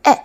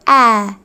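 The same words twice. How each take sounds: First: ए clipped short and quick; short vowel. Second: Vowel in ए stretched long and slow. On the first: Teacher showing students the short vowel, said quickly. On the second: Teacher showing students the long vowel, stretched out slowly. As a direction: draw the ए out into a long open vowel. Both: Shown as a demonstration. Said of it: "यहाँ पे आपको difference समझना है".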